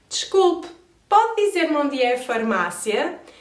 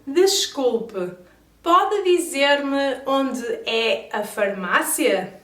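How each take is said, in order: First: It is said at a fast pace. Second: It is said at a normal pace.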